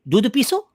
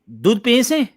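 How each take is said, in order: First: It is said in childlike baby talk. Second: It is said fully in plain adult speech.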